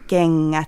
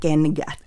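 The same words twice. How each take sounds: First: The middle is a long ng nasal. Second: The middle is an ng nasal plus a g. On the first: The speaker calls it right. "Ja kengät eikä kengät" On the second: The speaker calls it wrong. "se ääne on aika vaikea monille"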